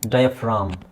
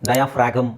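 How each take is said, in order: First: The word is said with no g sound. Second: The word is said with a g sound. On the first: The speaker calls it right. "ಇಲ್ಲಿ ಜಿ silent" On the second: The speaker calls it wrong. "ಡಯಾಫ್ರಾಗಮ್ ಅಲ್ಲ"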